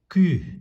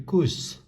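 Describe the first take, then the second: First: The word ends on the vowel, without s. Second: The word ends with an audible s sound. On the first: The speaker calls it right. "We say ka, sabju, ku, sa, ku" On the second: The speaker calls it wrong. "Logically it should be kus, but we don't say kus"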